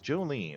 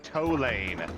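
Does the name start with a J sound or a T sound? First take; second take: J sound; T sound. First: The name begins with a J sound. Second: The name begins with a T sound.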